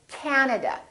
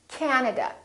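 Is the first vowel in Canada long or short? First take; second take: long; long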